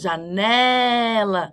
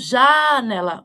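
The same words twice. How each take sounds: First: The stress is on the middle syllable. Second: The stress is not on the middle syllable. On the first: The speaker calls it right. "A mais forte é o né" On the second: The speaker calls it wrong. "E não janela"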